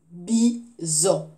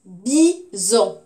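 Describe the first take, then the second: First: Bison evenly split, BI, gap, ZON; syllable by syllable. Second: Bison loud, BI, gap, ZON; syllable by syllable. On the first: Teacher repeating before the answer, Bison split syllable by syllable. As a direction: repeat Bison in two level beats. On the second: Teacher giving the next word, Bison split syllable by syllable. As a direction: say Bison as two strong, separate beats. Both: Shown as a demonstration. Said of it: "deuxième syllabe".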